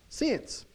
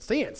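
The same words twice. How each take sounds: First: Said in the usual way. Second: Southern pronunciation of "since"; southern accent. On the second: Shown as a demonstration. Preacher showing how "since" sounds in a southern accent. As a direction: say "since" with a southern twang, close to "sense". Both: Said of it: "say it with a southern accent".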